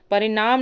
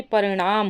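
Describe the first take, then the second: First: परिणाम with dental n, "parinaam"; plain n in परिणाम; wrong form. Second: परिणाम with retroflex ṇ; correct form. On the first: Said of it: "परिणाम नहीं होता". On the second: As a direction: curl the tongue for the ण of परिणाम. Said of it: "बल्कि परिणाम होता है". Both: Shown as a demonstration.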